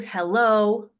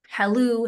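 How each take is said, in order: First: The first vowel is a front 'e' sound. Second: The first vowel is an open 'a' sound. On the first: This is the modern standard pronunciation. "the received pronunciation is is hello" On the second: This is the original Shakespearean pronunciation. "the halloo is the is the O P, is the original pronunciation"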